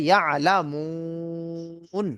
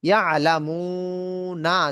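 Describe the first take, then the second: First: The word ends on a consonant sound. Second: The word ends with a final vowel. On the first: The reader stops on this word. "থামতে গেলে হবে" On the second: The word is read without stopping. "আছে"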